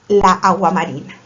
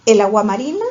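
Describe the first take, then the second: First: "la agua marina" with long "laː"; drawn-out wrong option. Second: Said in the usual way. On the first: Shown as a demonstration. Teacher testing pupils with the wrong article, drawn out. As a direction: linger on "laː" so the clash is heard. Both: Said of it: "¿Qué piensan ustedes?".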